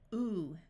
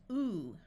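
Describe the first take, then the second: First: The vowel is a long ooh sound. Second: The same.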